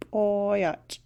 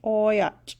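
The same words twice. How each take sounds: First: Put-on boyach repeated, falling; repeated model word. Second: Put-on boyach stressed, the vowel drawn long; boyach, a bit louder, falling; model word. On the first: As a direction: echo boyach calmly. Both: Shown as a demonstration. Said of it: "It's boyach".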